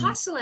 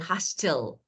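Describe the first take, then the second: First: The t sound is silent. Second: The t sound is clearly pronounced. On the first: The speaker calls it right. "this is the first rule about silent T" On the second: The speaker calls it wrong. "So we don't say hustle"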